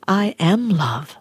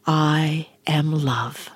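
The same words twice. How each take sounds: First: Said in the usual way. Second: Whispered affirmation. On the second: Shown as a demonstration. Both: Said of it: "repeat after me".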